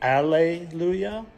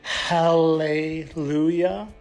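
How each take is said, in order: First: The word begins with a vowel, no h sound. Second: The word begins with a clear h sound.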